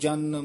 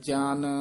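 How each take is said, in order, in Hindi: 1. शब्द छोटा और कसकर बोला गया है। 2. शब्द नरमी से और खींचकर बोला गया है। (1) "ਜੇ ਕਸ ਕੇ ਬੋਲਾਂਗੇ" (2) "ਦੋ ਅੱਖਰਾਂ ਨੂੰ ਜਿੰਨਾ ਲਮਕਾਵਾਂਗੇ ਪੋਲਾ ਅੱਖਰ ਵਧੀਆ ਬੋਲਿਆ ਜਾਂਦਾ ਹੈ"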